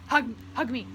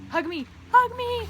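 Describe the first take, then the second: First: Said in the usual way. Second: Much higher and louder, squealing hug me; ecstatic squeal. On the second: Pretend. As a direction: squeal it out in delight. Begging new friend for hug.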